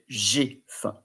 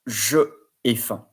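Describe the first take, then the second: First: The pronoun is merged into the following vowel. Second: The pronoun is said as its own separate syllable. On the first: The speaker calls it right. "then you say j'ai faim" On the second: The speaker calls it wrong. "you don't say je ai faim"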